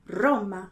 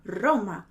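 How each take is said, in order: The two takes are said the same way.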